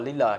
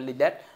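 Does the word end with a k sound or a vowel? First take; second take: vowel; k sound. First: The word ends in a vowel sound. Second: The word ends in a k sound. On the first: The speaker calls it right. "nó đọc là lila" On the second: The speaker calls it wrong. "chứ không phải lilac"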